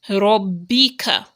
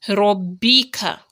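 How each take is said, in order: No difference in how they are said.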